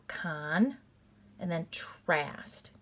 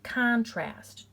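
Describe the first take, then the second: First: "con" then "trast", slowly and separated; split into syllables. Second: "contrast" said as one word, louder; blended whole word. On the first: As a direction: sound out "con" and "trast" as two beats. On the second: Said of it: "and I go con". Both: Shown as a demonstration.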